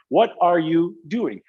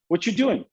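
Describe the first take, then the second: First: Every word is pronounced in full. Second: Some words are dropped and run together. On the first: It is a careful, less natural way of speaking. "I have to act strange. I have to say" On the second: It is the simpler, everyday way of speaking. "Instead of saying ... much simpler for us to talk that way"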